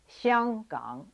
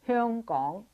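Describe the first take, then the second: First: The name is said with Mandarin pronunciation. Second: The name is said with Cantonese pronunciation. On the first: "but in Mandarin ... is pronounced Xiang Gang" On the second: "in Cantonese, Hong Kong is pronounced Hong Kong"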